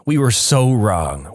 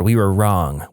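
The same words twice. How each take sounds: First: Slow, drawn-out "so"; stress on "so". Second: Said in the usual way. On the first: A narrator's reading. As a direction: stretch the word "so" for emphasis. Repeats it with SO added, emphatic.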